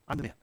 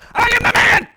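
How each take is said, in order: First: It sounds calm and gentle. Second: It sounds irritated and defensive.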